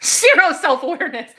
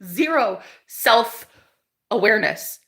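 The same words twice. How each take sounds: First: Laughing. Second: Slow emphatic. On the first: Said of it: "zero self-awareness (repeated slowly)". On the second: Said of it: "Zero self-awareness (laughing take)". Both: Real, not acted.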